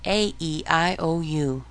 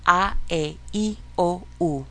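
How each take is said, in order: First: "A, E, I, O, U" as ay, ee, eye, oh, you; English vowel names. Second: "A, E, I, O, U" as ah, eh, ee, oh, oo; Spanish vowel sounds. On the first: Teacher recalling the childhood recital, "A, E, I, O, U" in English. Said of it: "when you were a kid". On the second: Teacher leading a practice drill, "A, E, I, O, U" as Spanish vowels. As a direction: chant "A, E, I, O, U" in separate pure Spanish vowels. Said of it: "these are the actual sounds of the vowels". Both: Shown as a demonstration.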